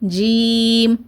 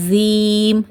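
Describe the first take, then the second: First: The first consonant is a plain, light j. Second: The first consonant sounds like a z. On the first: The speaker calls it right. "நார்மலாக சொல்லுங்கள்" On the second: The speaker calls it wrong. "இசட் sound கொடுத்து"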